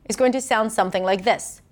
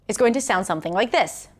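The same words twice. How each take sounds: No difference in how they are said.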